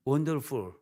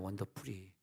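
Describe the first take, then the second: First: It is said with a native English pronunciation. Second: It is said with Korean-style syllables and vowels. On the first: The speaker calls it right. "발음해도 원 본토배기처럼 해야지" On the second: The speaker calls it wrong. "원더풀이 뭐냐 원더풀이"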